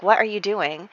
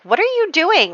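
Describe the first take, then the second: First: Said in the usual way. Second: Mock yell at him from the bridge; retold shout. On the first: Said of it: "to scold him in a way". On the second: Woman on the bridge calls to the man in the water, high mock yell. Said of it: "like, shouts to him".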